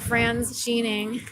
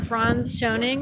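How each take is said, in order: First: The surname's first syllable sounds like 'sheen'. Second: The surname is said the usual way, not like 'sheen'. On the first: "like Martin Sheen or something" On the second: "which is normal"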